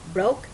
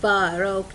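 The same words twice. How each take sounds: First: The b and r are joined directly. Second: A vowel sound separates the b and r. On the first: The speaker calls it right. "no broke" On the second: The speaker calls it wrong. "ما ينفع تحطي vowel كأنك بتقوليها تقولي broke"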